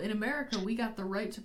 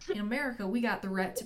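First: It is read in the speaker's ordinary accent. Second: It is read in a put-on Southern American accent.

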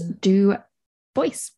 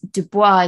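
First: The name is said with an English pronunciation. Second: The name is said with a French pronunciation. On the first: "his name was anglicized. So that's how history has remembered him. Hence" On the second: "Du Bois is obviously the French pronunciation"

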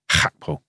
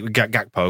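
First: The name starts with a throaty H sound. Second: The name starts with a hard G sound. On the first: This is the native way of saying it. "the native pronunciation is Hakpo" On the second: This is the local English way of saying it. "that's how we pronounce a G in this country"

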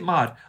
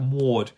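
First: The name is said in an American accent. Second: The name is said in an English accent. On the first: The name is easy and unremarkable to say. "In American, it sounds, it's really easy" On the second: The name makes the speaker sound pompous. "But in English, it's you sound like a pompous dick"

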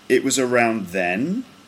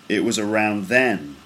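First: The pitch goes up at the end. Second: The pitch goes down at the end. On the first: "it's just sort of straight and then it goes up at the end" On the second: "it's kind of straight, and then it falls at the end"

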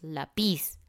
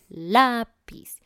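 First: The stress is on the second syllable. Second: The stress is on the first syllable. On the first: The speaker calls it wrong. "No decimos lápiz" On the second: The speaker calls it right. "la parte fuerte es la"

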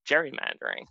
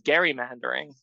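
First: The word begins with a J sound. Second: The word begins with a hard G sound. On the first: This is the way it is said today. "rather than" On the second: This was the original way it was said. "the practice was known as"

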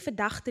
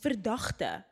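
First: The word is said flat, colloquially. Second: The word is said with over-enunciation.

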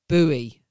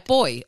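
First: It is said with an American pronunciation. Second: It is said with the speaker's own pronunciation. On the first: "I may have been watching some Baywatch reruns" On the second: "we call it a boy"

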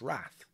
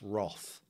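First: It is said with an American pronunciation. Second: It is said with a non-American pronunciation.

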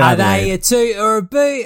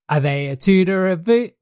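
First: It is said in a put-on Australian accent. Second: It is said in the speaker's normal accent.

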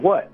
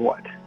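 First: It sounds like a normal, questioning reply. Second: It sounds like a flat statement.

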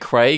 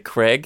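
First: The name is said in an Australian accent. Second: The name is said in an American accent. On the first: "we say Craig" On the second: "Americans say Craig"

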